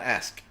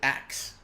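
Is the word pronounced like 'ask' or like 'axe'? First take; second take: ask; axe. First: The final sounds are in order, like 'ask'. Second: The final sounds are swapped, like 'axe'. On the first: "Not ask" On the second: "or was it axe?"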